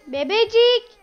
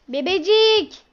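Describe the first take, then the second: First: Put-on higher loud call to baby. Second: Put-on loud call to baby. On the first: Calling the baby again higher. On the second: Calling the baby.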